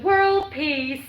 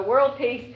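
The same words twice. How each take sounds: First: Lightly voiced beauty queen; pageant contestant. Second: Said in the usual way. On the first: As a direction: chirp it like a pageant answer. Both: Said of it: "Ain't that what Miss Universe always says?".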